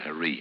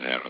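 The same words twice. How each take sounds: First: It is said with the locals' different pronunciation. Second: It is said with the speaker's usual pronunciation. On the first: The speaker calls it wrong. "by the way they pronounce it harem. Foolish of them" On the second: The speaker calls it right. "I did spend a night in a harem"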